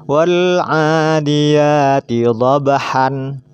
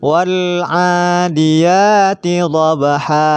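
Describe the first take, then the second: First: The last word ends with an n sound. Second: The last word ends on a long a vowel. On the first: The speaker calls it wrong. "tidak boleh dibaca" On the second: The speaker calls it right. "fathatain kita berhenti menjadi dhabha"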